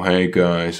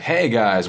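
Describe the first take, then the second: First: The greeting sounds flat and gloomy. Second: The greeting sounds upbeat and friendly. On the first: The player seems no fun to play with. The speaker calls it wrong. "like a negative way, you sound like" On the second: The player seems fun to play with. The speaker calls it right. "instead of being like"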